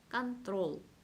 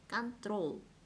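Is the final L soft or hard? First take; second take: hard; hard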